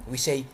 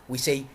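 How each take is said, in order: Both takes have the same delivery.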